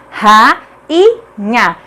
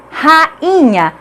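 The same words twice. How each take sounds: First: "rainha" broken into ra... i... nha, pauses between; syllable by syllable. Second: "rainha" with a small break after "ra"; slightly split syllables. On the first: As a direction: sound out "rainha" in three separate syllables. ("rainha" silabado, com pausas: ra... i... nha) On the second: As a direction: say "rainha" lightly split as ra-inha. ("rainha" com leve separação: ra-inha) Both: Shown as a demonstration. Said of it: "Cada uma fica em uma sílaba diferente".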